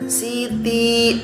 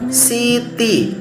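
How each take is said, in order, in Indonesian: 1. Vokal akhirnya panjang. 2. Vokal akhirnya pendek. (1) "Ustadz bacanya panjang" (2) "Di kasroh"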